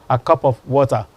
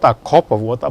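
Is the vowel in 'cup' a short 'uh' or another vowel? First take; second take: short uh; other vowel. First: The vowel in cup is a short uh. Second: The vowel in cup is not a short uh. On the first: The speaker calls it right. "but a, a cup of water" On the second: The speaker calls it wrong. "not a cup of water"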